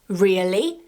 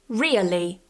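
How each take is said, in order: First: The pitch rises at the end. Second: The pitch falls at the end. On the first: It sounds like a question or surprise. "the intonation goes up at the end" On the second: It sounds like a statement. "with a falling intonation at the end"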